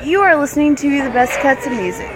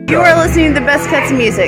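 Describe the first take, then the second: First: It is said at a slower pace. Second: It is said at a faster pace.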